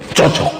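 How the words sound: It is said as sincere, approving praise. The two really do suit each other.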